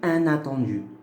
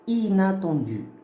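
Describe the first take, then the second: First: The first vowel is a nasal vowel. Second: The first vowel is oral, followed by n. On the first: The speaker calls it wrong. "J'ai pas dit un" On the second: The speaker calls it right. "J'ai dit inattendu. Ina"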